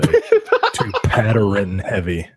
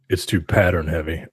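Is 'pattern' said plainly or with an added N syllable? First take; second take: added N; plainly. First: It is said in an imitated Baltimore accent. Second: It is said in the speaker's ordinary accent.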